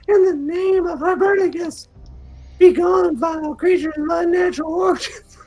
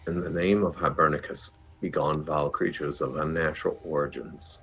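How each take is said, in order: First: It is said in a put-on female character voice. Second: It is said in the speaker's ordinary voice.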